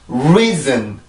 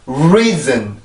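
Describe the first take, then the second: Both takes have the same delivery.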